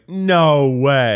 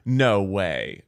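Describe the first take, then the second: First: It is said somewhat louder. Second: It is said at the quietest volume.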